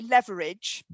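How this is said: It is said with an American pronunciation.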